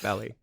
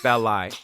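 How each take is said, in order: First: The name is said as Belly. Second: The name is said as Belli. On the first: The speaker calls it wrong. "not Belly" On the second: The speaker calls it right. "it's Belli"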